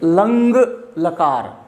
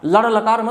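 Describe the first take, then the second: First: The first word ends in a nasal 'ng' sound. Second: The first word ends in a flapped 'r' sound. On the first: The speaker calls it right. "इसका उच्चारण हम करेंगे लंग लकार" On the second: The speaker calls it wrong. "लड़ लकार मत कह देना"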